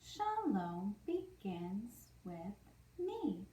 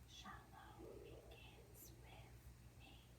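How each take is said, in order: First: It is spoken in a normal voice. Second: It is spoken in a whisper.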